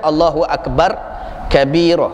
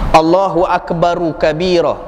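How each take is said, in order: First: Akbar ends on r with no linking vowel. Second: Akbar links to kabira with an added u vowel. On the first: The speaker calls it wrong. "Jangan dibaca" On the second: The speaker calls it right. "baca bagi belok"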